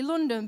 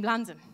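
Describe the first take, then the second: First: Said in the usual way. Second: London said in East London dialect, vowels flattened to "Landan"; East London accent. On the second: Shown as a demonstration. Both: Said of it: "suddenly London became London".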